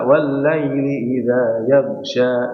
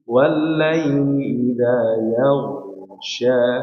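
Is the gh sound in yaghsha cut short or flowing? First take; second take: cut short; flowing. First: The gh sound is thin and cut short. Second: The gh sound is heavy and flows fully. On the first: The speaker calls it wrong. "enggak dibaca" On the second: The speaker calls it right. "Pertama ditebalkan dulu baru dialirkan sempurna"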